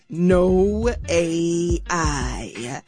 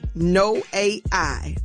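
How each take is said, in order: First: It is said very slowly. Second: It is said at normal speed.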